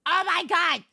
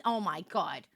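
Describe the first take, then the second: First: High exclamation of shock; exclaimed disbelief. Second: Low, soft groaning reaction; subdued disbelief. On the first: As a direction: cry it out, pitch jumping up. Repeats it as a louder exclamation. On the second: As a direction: say it low, half to yourself. First, low muttered reaction. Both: Real, not acted.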